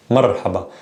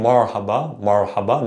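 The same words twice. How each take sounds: First: "marhaba" with the R tapped as in American butter; soft tapped R. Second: "marhaba" with an American back-tongued R; English R, wrong way. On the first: Teacher corrects the mistake, soft tapped R. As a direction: tap the R of "marhaba" at the tongue tip. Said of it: "taken from butter or better". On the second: Teacher shows the mistake, English-style R. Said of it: "tongue is in the back". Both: Shown as a demonstration.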